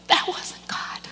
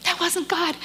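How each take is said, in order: First: Choked up. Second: High, tearful insistence; choked up. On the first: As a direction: voice gone to a whisper. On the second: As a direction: voice it through the tears, pitched high. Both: Real, not acted. Moved after upsetting story, choked up.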